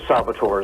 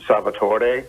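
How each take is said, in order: First: The name is said anglicized with fewer syllables. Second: The name is said with full Italian pronunciation. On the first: "that's too many syllables for the South ... so Salvatore is fine" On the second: "the Italian pronunciation is Salvatore"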